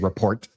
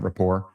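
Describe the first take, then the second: First: The word sounds like 'report'. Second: The word sounds like 'rapport'. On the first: The speaker calls it wrong. "They don't even pronounce it right. They say report" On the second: The speaker calls it right. "Not rapport"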